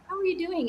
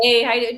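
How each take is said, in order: First: It is said warmly and sincerely. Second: It is said quickly and offhandedly.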